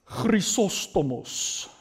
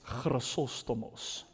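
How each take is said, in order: First: The name is said with a Greek pronunciation. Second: The name is said with an Afrikaans accent. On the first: "That's a correct Greek pronunciation" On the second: "In my Afrikaans way of saying English names"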